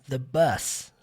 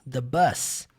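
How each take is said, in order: The two takes are said the same way.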